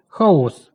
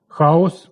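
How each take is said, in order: First: Хаос as хао́с, second syllable hit; meaning "a mess", so stress the end; наголос на другому складі. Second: Хаос as Ха́ос, first syllable hit; the mythological Chaos, so stress the start; наголос на першому складі. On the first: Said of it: "тобто безлад". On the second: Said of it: "у міфології стихія". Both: Shown as a demonstration.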